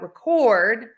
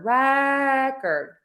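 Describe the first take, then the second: First: The stress is on the second syllable. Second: The stress is on the first syllable. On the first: "syllable number two is going to be stressed" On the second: "we are stressing syllable number one"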